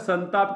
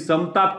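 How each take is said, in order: First: The nasal before t sounds like n. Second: The nasal before t sounds like m. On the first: The speaker calls it right. "तर संताप करणार आहे" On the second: The speaker calls it wrong. "मग तुम्ही समताप करणार आहे का संताप करणार आहे?"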